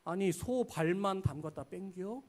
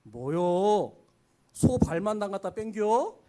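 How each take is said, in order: First: Softer Chungcheong repeat rising on 뺑겨; worldly critic in mild Chungcheong dialect; mild Chungcheong jab. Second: Louder Chungcheong jab, rising on 뺑겨; Chungcheong dialect. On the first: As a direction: quietly tease like a country elder. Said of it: "뼈 있는 말들을 우리에게 해요". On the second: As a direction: complain about bland soup, country style. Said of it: "갈비탕이 맛없을 때 하는 말". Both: Retold or imitated.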